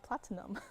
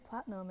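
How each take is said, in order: First: The middle syllable is clearly said, giving three syllables. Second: The middle syllable is dropped, giving two syllables. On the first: This follows the spelling of the word. "and not platinum" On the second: This is how people usually say it. "Why do we say platinum"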